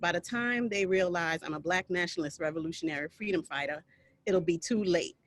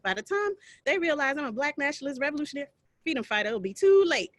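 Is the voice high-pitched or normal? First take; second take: normal; high-pitched. First: It is spoken in an ordinary, unaltered voice. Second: It is spoken in a high-pitched character voice. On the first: "I'm not saying it with the same intonations" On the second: "So in this high pitched voice"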